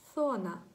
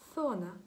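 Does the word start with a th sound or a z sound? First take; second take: th sound; th sound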